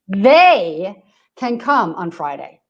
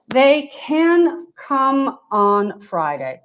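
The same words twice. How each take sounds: First: The stress is on the word they. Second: No word in the sentence is stressed. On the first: "I'm going to stress the first part of the sentence" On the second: "I didn't stress anything"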